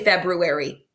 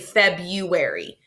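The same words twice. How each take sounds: First: The r after the b is clearly pronounced. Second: The r after the b is left out. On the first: "Some people say February" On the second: "We usually say February. People sometimes leave that out"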